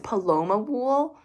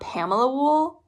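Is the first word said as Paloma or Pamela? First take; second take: Paloma; Pamela. First: The first word is said as Paloma. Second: The first word is said as Pamela. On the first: The speaker calls it right. "but it's Paloma Wool" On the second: The speaker calls it wrong. "I pronounce it wrong the entire time"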